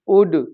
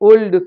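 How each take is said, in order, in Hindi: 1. L की ध्वनि silent है। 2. L की ध्वनि बोली जाती है। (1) "इनमें एल साइलेंट होता है" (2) "लेकिन वो इनको भी ... करके पढ़ते हैं"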